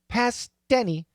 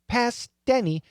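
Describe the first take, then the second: First: A soft, half-released T links the two words. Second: The same.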